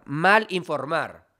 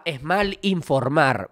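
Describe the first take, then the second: First: Mal informar, slow, mal punched; stress on mal again. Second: Mal informar, slow with mal stressed. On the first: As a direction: lean on mal, slowly. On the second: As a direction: hit the word mal, slowly. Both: Shown as a demonstration.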